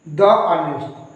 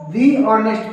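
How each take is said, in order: First: 'The' is said with a short 'uh' vowel. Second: 'The' is said with a long 'ee' vowel. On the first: The speaker calls it wrong. "ना कि द honest" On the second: The speaker calls it right. "इस case में इसको दी honest पढ़ेंगे"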